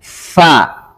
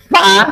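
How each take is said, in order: First: The f is made with audible flowing air. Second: The f is made without audible flowing air. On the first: The speaker calls it right. "harus ada hamsnya. Fa" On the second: The speaker calls it wrong. "kalau bertemu saja fa, fa, fa, ada nggak sifatnya? Ah, salah"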